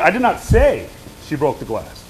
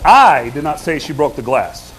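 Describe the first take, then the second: First: The stress falls on the word say. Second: The stress falls on the word I. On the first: It was implied rather than said outright. "I didn't say it. I inferred it. I implied it" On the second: Someone else said it. "What am I trying to communicate there? I didn't say it"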